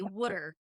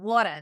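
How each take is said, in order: First: Water is said in a New Jersey accent. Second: Water is said in a Long Island accent. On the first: The local way of saying it. "They say Woodard" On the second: Not the local way of saying it. "they don't say it like Ne- Brooklyn or Long Island water"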